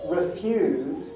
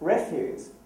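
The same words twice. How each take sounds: First: The stress is on the second syllable. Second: The stress is on the first syllable. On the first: "with the stress on the use" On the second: "the stress was on the re"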